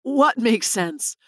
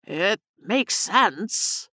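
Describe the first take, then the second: First: Slow, mildly puzzled question; understated bewilderment; confused. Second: Very slow, thought left hanging; slow, musing fade; trailing off. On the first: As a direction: ask it slowly, not following. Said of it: "Nick was confused". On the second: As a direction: stretch the words out as the thought drifts away. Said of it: "he trailed off". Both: A narrator's reading.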